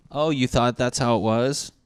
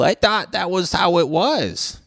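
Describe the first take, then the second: First: Sarcastic throwback of his own words; mocking echo. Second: High, loud, dopey know-nothing voice; gullible Jerry voice. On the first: Answering the gullible viewer with a sarcastic echo. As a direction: repeat it back to mock him. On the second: Retold or imitated. Mocking a gullible viewer in a high, loud dopey voice. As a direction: play the clueless guy who believes everything. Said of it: "Old fucking Jerry Gullible".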